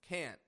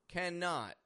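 First: It is contracted with a stopped final T. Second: It is said in full as two syllables.

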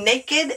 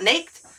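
First: The word is said with two syllables. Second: The word is said with one syllable. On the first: The speaker calls it right. "Why do we say naked" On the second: The speaker calls it wrong. "and not naked?"

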